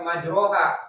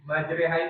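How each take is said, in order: First: The vowel after r is full, toward a. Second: The vowel after r is thin, toward e. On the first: The speaker calls it wrong. "Jadi bukan majroha" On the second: The speaker calls it right. "Majreha itu tipis jatuhnya"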